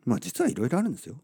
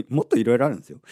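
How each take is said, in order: First: Said in the usual way. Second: "もっと" stressed and louder; louder "もっといろいろあるんですよ"; louder insistence. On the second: Real, not acted. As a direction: push "もっと" out loud, teasing.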